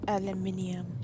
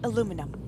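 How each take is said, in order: First: The word is said the British way. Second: The word is said the American way.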